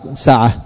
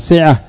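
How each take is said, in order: First: The first syllable has an 'a' vowel. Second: The first syllable does not have an 'a' vowel. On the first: The speaker calls it right. "والصواب سعة، فتح السين" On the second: The speaker calls it wrong. "الخطأ يقول بعضهم سعة"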